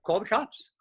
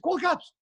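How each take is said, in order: First: Said in the usual way. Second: Mocking dare. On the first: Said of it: "the gym owner was like". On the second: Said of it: "And I said".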